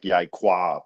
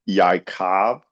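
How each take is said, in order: First: The name ends in a 'kwab' sound. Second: The name ends in a plain 'kov' sound. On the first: Someone else said the name this way. "he mispronounced his name" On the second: This is the name as it is usually said. "His name is Yaakov"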